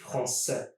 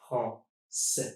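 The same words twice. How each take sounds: First: Said in the usual way. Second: Français in two separate syllables; split into syllables. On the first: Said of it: "it would look something like this". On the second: Shown as a demonstration. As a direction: pause between the syllables of français. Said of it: "try to divide words in syllables".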